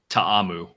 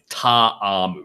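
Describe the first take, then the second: First: The name is said at normal speed. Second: The name is said slowly, syllable by syllable.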